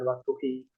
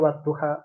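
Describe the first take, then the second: First: The word ends with an "i" vowel. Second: The word ends with an "a" vowel. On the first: The speaker calls it wrong. "bukan waktuhi" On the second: The speaker calls it right. "karena bunyinya waktuha"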